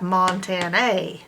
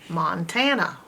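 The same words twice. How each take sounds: First: The final vowel is a full ay sound. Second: The final vowel is a weak uh sound. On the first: The speaker calls it wrong. "this A would say A, so you'd have Montana, but that's not how it's pronounced" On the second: The speaker calls it right. "It's making a uh sound, so it's a schwa"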